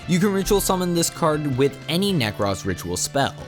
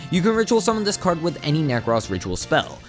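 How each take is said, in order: The two takes are said the same way.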